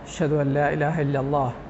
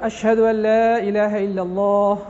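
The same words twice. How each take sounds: First: It is said in a low, quiet voice. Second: It is said in a loud, full voice. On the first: It is meant to be heard only by oneself and those nearby. "চুপে চুপে অর্থাৎ নিচু আওয়াজে" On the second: It is the normal call meant for everyone. "যথারীতি উচ্চ আওয়াজে"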